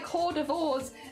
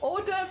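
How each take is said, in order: First: It is said letter by letter as spelled. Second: It is said in the usual French-derived way. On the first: The speaker calls it wrong. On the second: The speaker calls it right.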